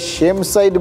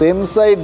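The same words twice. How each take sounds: First: The first word begins with an sh sound. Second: The first word begins with a plain s sound. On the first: It expresses shame. "একটু উচ্চারণটা আলাদা, আর তার মানে হচ্ছে লজ্জা" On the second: A goal scored against one's own side. "সেম side না বলে"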